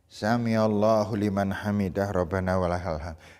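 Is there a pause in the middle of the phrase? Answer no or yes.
no. The phrase runs on without any pause. The movements are rushed together. The speaker calls it wrong. "Tidak boleh"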